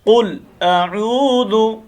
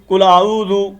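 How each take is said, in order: First: The vowel in the second word is held long. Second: The vowel in the second word is cut short. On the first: The speaker calls it right. "एक अलिफ के मुताबिक हमने लंबा करके पढ़ना है" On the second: The speaker calls it wrong. "हम यहाँ क्या गलती करते हैं"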